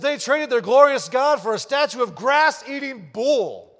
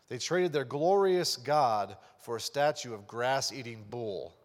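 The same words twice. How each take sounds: First: It is read in a sarcastic, mocking tone. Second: It is read in a plain, straight tone.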